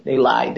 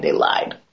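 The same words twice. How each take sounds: First: Said in the usual way. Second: Whispered aside; conspiratorial whisper warning about bathroom storage. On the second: Real, not acted. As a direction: hush it like a secret. Repeated, then whispered.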